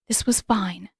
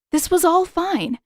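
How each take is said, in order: First: Whispered, unvoiced, telling herself it's fine; breathless whisper. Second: Much higher, nervously insisting it's fine; rising panic. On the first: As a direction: breathe the words out to calm yourself. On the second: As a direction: let the panic crack through the reassurance. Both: A narrator's reading. Panicking heroine reassures herself.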